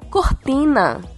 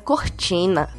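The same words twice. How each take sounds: First: The t is a plain, hard t. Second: The t is a soft ch-like sound.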